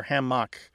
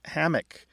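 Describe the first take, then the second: First: Hammock as ham-MOCK, full final vowel; second-syllable stress. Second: Hammock as HAM-uck, reduced ending; first-syllable stress. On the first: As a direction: put the weight on MOCK in hammock. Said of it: "stress on the second syllable". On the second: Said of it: "stress on the first syllable". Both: Shown as a demonstration.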